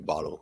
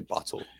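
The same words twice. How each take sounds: First: The middle consonant sounds like a soft D. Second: The middle consonant is a crisp hard T. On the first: "As opposed to like a D sound, because we just say bottle" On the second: "We don't say bottle"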